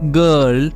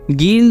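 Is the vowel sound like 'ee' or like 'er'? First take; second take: er; ee. First: The vowel is a central 'er' sound. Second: The vowel is a long 'ee' sound. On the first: The speaker calls it right. "हम जो आई है इसे हम अ पढ़ रहे हैं" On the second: The speaker calls it wrong. "गील नहीं"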